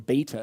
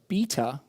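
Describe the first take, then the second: First: It is said the American way. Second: It is said the British way.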